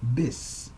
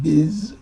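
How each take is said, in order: First: It ends with a hissing s sound. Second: It ends with a buzzing z sound. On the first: The speaker calls it right. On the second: The speaker calls it wrong. "not biz"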